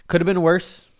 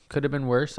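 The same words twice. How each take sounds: First: "Could have been worse" raised high and loud on been; emphatic, higher. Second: Said in the usual way. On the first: Shown as a demonstration.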